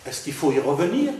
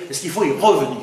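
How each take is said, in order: First: Said in the usual way. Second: REVENIR punched on its first syllable, then falling; displaced insistent stress. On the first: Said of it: "ou est-ce que je vais vous dire". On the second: Shown as a demonstration. Lecturer contrasts intonation with word accent, first syllable of revenir hit hard. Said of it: "ce n'est plus l'accent étymologique".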